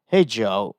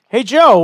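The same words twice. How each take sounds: First: It is said in a normal voice. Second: It is said in a high voice.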